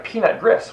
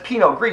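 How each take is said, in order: First: The name is said as English-looking words. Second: The name is said with French sounds. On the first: The speaker calls it wrong. "You pronounce it wrong" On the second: The speaker calls it right. "no, that's Pinot Gris"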